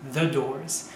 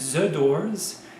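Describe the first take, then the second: First: The word begins with a true th sound. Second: The th is replaced by another sound. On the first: The speaker calls it right. "ils ne feront jamais le the" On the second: The speaker calls it wrong. "pour un Français, ce sera toujours the doors"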